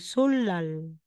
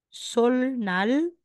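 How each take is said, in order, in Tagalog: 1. Ang mga katinig sa gitna ay parang dobleng l. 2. Ang mga katinig sa gitna ay tunog l na sinusundan ng n. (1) "magiging solal"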